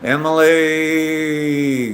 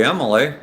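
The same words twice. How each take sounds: First: Drawn-out name. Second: Said in the usual way. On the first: Real, not acted. Streamer reads out a viewer's long name, drawn-out. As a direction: stretch the last sound of EMILY out very long, higher. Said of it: "that's a big, long name". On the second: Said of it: "I'm just gonna call you".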